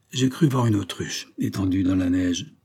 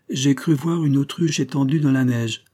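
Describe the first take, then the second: First: Dull voice. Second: Docile reading. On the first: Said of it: "répliqua d'une voix morne". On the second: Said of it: "lut docilement le sténographe". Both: A narrator's reading.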